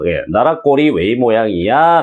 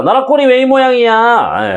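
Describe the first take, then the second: First: Said in the usual way. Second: High, indignant complaint, rising on 왜; exasperated outburst. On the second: Pretend. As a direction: throw up your hands at the country. Title line voiced as outburst.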